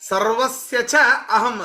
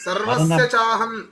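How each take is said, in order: First: The two words are said as separate words. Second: The two words are merged into one sound. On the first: This makes the meaning of each word clear. "ಬಿಡಿಸಿ ಬಿಡಿಸಿ ಹೇಳ್ಬೇಕಾದ್ರೆ ಬಿಡಿಸಿ ಹೇಳ್ಬೇಕಾಗತ್ತೆ" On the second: This is how the verse is recited. "ಸಂಧಿಗಳನ್ನು ಮಾಡೇ ಹೇಳಬೇಕು"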